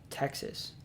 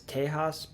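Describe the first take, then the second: First: The name is said the American way. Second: The name is said the Mexican way. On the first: This is the name used by the American immigrants. "These American immigrants pronounced the name of their new home" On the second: This is the name used by the Mexicans living there. "not as Tejas"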